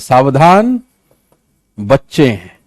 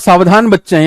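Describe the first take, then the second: First: There is a pause after the first word. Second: The words run on without a pause. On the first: A warning to be careful because children are aboard. The speaker calls it right. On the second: The children themselves are careful. The speaker calls it wrong.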